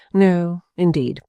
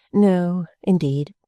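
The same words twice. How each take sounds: First: Slow, composed and pleasant; smiling perfect composure; charming tone. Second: Light, composed repetition; smiling, unbothered; charming tone. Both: A narrator's reading. Mrs Jellyby repeats herself while sorting letters, charming. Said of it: "in quite a charming tone of voice".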